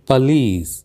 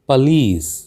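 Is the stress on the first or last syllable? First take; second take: last; last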